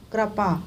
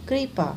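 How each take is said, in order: First: कृपा said as kra-pa; wrong vowel. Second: Said in the usual way. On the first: Shown as a demonstration. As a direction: put an a in place of ri in कृपा. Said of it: "इनका अशुद्ध रूप क्या है". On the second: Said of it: "और ये है".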